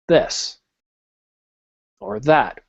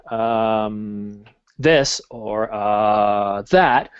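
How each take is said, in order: First: The pauses are left silent, without filler sounds. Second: The pauses are filled with um and uh. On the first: The speaker calls it right. "I'll do this or that while I'm trying to remember" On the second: The speaker calls it wrong. "instead of doing um, this or uh, that"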